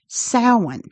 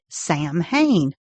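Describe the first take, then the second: First: The word is not said as it is spelled. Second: The word is said as it is spelled. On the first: The speaker calls it right. "but pronounced Samhain" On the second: The speaker calls it wrong. "I always pronounced it Sam Hain, the way it looks"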